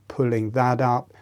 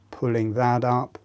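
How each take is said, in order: Both takes have the same delivery.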